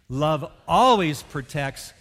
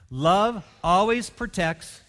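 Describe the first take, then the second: First: The word always is emphasized. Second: It is read without special stress on always.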